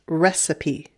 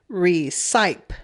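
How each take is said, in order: First: The vowel before the final e is short. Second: The vowel before the final e is long. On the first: The speaker calls it right. "but it doesn't. It's pronounced recipe" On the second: The speaker calls it wrong. "E at the end usually changes the vowel to a long vowel sound. So it should say recipe"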